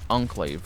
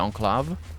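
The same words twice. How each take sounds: First: The word is said in an English style. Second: The word is said in a French style. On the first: "not enclave" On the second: "the proper French way, because that would be enclave"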